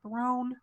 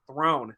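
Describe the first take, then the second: First: "Throne?" said high and soft with a questioning lift; high, hushed, questioning "Throne?"; puzzled question. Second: "Throne." said low and flat, falling like a simple claim; low falling "Throne." as if announcing ownership; flat proud statement. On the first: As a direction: ask "Throne?" in quiet disbelief, pitch pointed up. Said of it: "he's like". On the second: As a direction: state "Throne." matter-of-factly, voice dropping at the end. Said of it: "she's like". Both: Retold or imitated.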